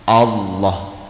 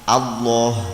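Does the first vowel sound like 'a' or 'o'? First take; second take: o; a. First: The first vowel sounds like 'o'. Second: The first vowel sounds like 'a'. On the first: The speaker calls it wrong. "kita sering bacanya Allah. Nah itu yang keliru" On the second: The speaker calls it right. "harus sesuai tajwid A. Jadi kalau takbiratul ihram Allah A"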